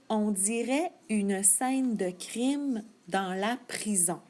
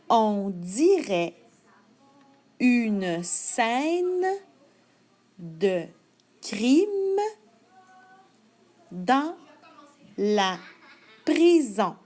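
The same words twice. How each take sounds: First: It is read at normal speed. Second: It is read slowly.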